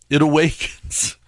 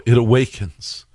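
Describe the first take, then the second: First: Higher, softer ominous whisper; dramatic hush. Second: Said in the usual way. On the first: Shown as a demonstration. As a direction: breathe it like a horror trailer.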